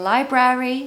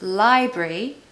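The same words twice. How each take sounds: First: The second syllable does not sound like 'brie'. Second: The second syllable sounds like 'brie'. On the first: The speaker calls it wrong. "I can hear people saying library, library, but no" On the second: The speaker calls it right. "the second syllable is the French cheese, brie"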